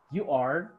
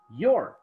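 First: Said in the usual way. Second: "your" in one falling syllable; forma abreviada. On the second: Shown as a demonstration. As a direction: run you are together as "your". ("your" contraído en una sílaba)

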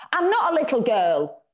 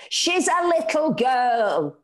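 First: Put-on firm child's defiance, raised; stoutly. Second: Slow, higher, louder protest; hammed-up shriek for her daughter; mock shriek. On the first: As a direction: stand up for yourself. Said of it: "Kim said stoutly". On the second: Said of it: "Anna shrieked". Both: A narrator's reading.

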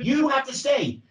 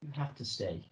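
First: Higher, urgent take on the line; raised insistent plea. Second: Much softer, almost under the breath; soft, low take on the line; quiet plea. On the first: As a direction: push the line up in pitch. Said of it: "what are the many different ways you can say this". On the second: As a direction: pull it down to a hush. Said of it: "Can you say it quieter?". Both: Shown as a demonstration.

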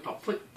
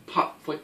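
First: Soft whispered drum beats; whispered drum syllables. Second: Chanted, call the beat in a normal voice; chanted drum syllables. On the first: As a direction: breathe the beat under your breath. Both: Shown as a demonstration. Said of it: "put this into a shiftatelli".

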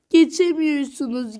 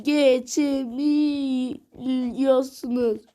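First: Said in the usual way. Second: Geçemiyorsunuz stretched out very slowly, falling at the end; slow drawn-out taunt. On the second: Real, not acted. Gamer teasing viewers they can't pass, slowly drawn out. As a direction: drag every syllable of geçemiyorsunuz.

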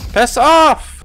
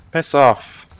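First: High, loud exasperated yell; real high-pitched outburst; angry yell. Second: Said in the usual way. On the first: Real, not acted. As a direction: yell it at the attacker, pitch shooting up. Third escalating repeat under attack.

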